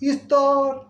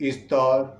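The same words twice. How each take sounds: First: It is said from a high voice level. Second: It is said from a middle voice level. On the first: "উঁচু স্তর" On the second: "মধ্য স্তর"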